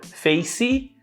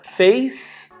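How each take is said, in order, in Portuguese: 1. Um som de vogal extra vem depois da consoante final. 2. A palavra termina limpa na consoante. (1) "Face fica face" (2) "a gente coloca dois sons de I"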